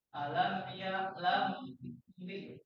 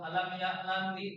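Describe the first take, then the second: First: The nasal m is held for two counts. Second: The nasal m passes quickly without being held. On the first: The speaker calls it right. "tahan dulu ya" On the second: The speaker calls it wrong. "jangan langsung alam ya lam li"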